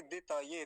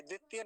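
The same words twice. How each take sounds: First: दितये with a full त and short दि; correct version. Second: द्वितीय with द्वि and long ई; wrong version. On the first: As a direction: say दितये cleanly. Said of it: "तकार पूरा है ना". (दितये, पूरा त) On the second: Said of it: "द्वितीय नहीं बोलेंगे". (द्वितीय (गलत)) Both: Shown as a demonstration.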